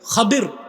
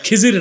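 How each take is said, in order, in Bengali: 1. মধ্যের ব্যঞ্জনটি d ধ্বনি। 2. মধ্যের ব্যঞ্জনটি j ধ্বনি। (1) "নামটা কি? খাদির।" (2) "নামটা ভুল বলেন, খিজির না"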